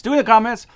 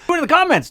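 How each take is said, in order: First: "in" leicht betont, ruhiger Ton; stress on in. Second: "comments" höher betont und hervorgehoben; stress on comments. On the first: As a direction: lean gently on "in" at a normal pitch. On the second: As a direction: push "comments" up high and strong. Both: Shown as a demonstration. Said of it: "You can talk about it too".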